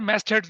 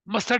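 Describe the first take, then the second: First: The first vowel is open, like 'mast'. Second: The first vowel is short, like 'must'. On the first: The speaker calls it right. "मैस्ट heads बोलते हैं इसको" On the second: The speaker calls it wrong. "मस्ट head नहीं होता"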